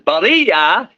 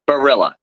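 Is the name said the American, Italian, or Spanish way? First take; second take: Spanish; American. First: The name is said with a Spanish pronunciation. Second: The name is said with an American pronunciation. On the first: "that's actually the Spanish pronunciation" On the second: "in the U S A, growing up, it's in my town, I'm known as"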